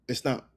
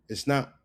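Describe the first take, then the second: The two takes are said the same way.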